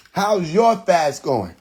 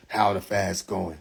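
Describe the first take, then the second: First: Slow "your", pitched above the first asking; stress on YOUR. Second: Low, slow, softer question; mimicked question. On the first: Acted. Turning the question back on the viewer, stress on "your". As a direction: throw it back, leaning slowly on "your". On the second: Viewer asking about his fast, mock low question. Quoting question put to him.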